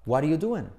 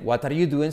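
First: "What are you doing?" run together as "wariu duen"; all one word, "wariuduen" for "What are you doing?"; native linked pronunciation. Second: "What are you doing?" with a hard T and full "are", Spanish accent; Spanish classroom rendering of "What are you doing?"; Spanish-accented English. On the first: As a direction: drop "are" and tap the T of "What". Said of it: "sino dicen". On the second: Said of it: "los nativos no dicen". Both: Shown as a demonstration.

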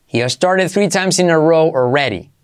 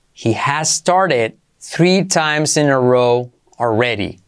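First: Said in the usual way. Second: Slow, careful teaching pace. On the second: Shown as a demonstration. Teacher to students, slow model sentence. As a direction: stretch it out for learners. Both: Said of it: "slow model then normal".

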